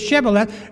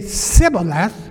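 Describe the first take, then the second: First: The word begins with an sh sound. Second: The word begins with a plain s sound. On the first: This is the password as it should be said. The speaker calls it right. "because they couldn't say Shibboleth" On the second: The speaker cannot produce the sound and is exposed. The speaker calls it wrong. "they say Sibboleth, they couldn't say the SH"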